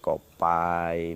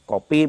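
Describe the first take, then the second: First: The last vowel is an 'eye' sound. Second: The last vowel is a plain 'ee' sound. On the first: This is the Osing dialect form. "menjadi kopai, misalnya seperti itu" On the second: This is the standard Javanese form. "berbeda dengan bahasa Jawa"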